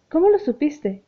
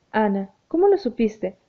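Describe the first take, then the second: First: Higher, sharp startled blurt; startled exclamation. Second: Said in the usual way. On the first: A narrator's reading. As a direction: blurt it out, caught off guard. (exclamación sobresaltada y aguda) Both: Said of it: "exclamó".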